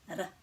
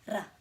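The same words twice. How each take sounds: First: The R is said with a roll. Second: The same.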